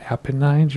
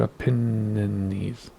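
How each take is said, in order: First: "Apennines" as APP-uh-nines; Apennines ending in "nines". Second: "Apennines" drawn out as uh-PEN-uh-neez; Apennines ending in "neez". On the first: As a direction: end "Apennines" on a long-I "nines". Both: Shown as a demonstration. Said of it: "Is it Apennines or Apennines?".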